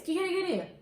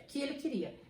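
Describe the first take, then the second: First: "o que que ele queria" pitched up, leaning on the doubled "que que"; emphatic question. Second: Said in the usual way. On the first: Shown as a demonstration. Teacher contrasting emphatic with direct question. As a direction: stress "que que" as if you really want to know. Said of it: "a gente tá enfatizando porque você quer saber mesmo". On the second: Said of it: "aqui é direto".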